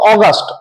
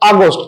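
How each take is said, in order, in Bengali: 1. এটি মাসের নামের মতো উচ্চারিত হয়। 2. এটি বিশেষণের মতো উচ্চারিত হয়। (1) "এক্ষেত্রে আমরা উচ্চারণ করবো অগাস্ট, অগাস্ট মাসের নাম।" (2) "উচ্চারণ আমরা আর অগাস্ট করবো না, করবো আগস্ট"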